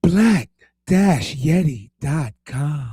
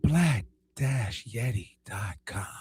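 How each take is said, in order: First: It is said loudly. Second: It is said quietly.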